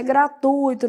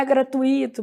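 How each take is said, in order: First: Gratuito as gra-TÚI-to; stress on U. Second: Gratuito as gra-tu-Í-to; stress on I. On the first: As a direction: glide TÚI as one syllable in gratuito. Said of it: "eu falo, gente". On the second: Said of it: "não é gratuito". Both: Shown as a demonstration.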